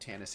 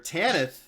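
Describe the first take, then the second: First: The final s is a plain hissing sound. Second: The final s is lisped like th.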